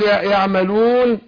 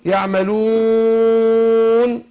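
First: The long vowel is held for two counts. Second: The long vowel is held for four counts.

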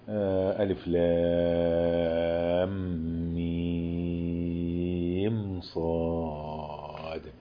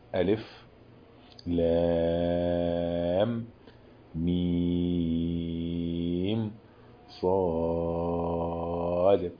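First: The letters run on without pauses between them. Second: A brief pause without breath follows each letter.

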